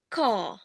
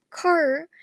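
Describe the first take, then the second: First: The final r sound is silent. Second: The final r sound is pronounced. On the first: "in General British, the r is non-rhotic, so it is not realized" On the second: "in General American, the r sound is rhotic"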